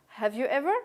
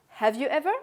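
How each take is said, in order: No difference in how they are said.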